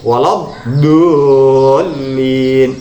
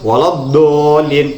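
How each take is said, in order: First: The d sound is drawn out and lengthened. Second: The d sound is cut short and abrupt. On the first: The speaker calls it right. "tapi walad dolin" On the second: The speaker calls it wrong. "Jadi tidak langsung walad dolin"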